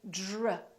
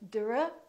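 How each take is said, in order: First: It has a soft j-like sound. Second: It has a plain, separate d sound. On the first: The speaker calls it right. "this D R sort of becomes like the letter J" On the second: The speaker calls it wrong. "we don't say dr"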